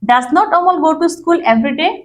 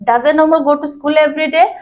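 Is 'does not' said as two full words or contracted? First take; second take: full; contracted. First: Does not is said as two full words. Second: Does not is shortened into one word. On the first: An older style of asking. "এটা অনেক পুরনো style" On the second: A shortened way of asking. "Contraction form মানে ছোট করে বলার ধরন"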